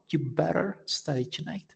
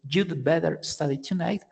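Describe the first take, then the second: First: The had sound is left out entirely. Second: Had is shortened to a d sound. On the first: It sounds even more informal. "even uh, more informal" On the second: It sounds more casual. "you could say"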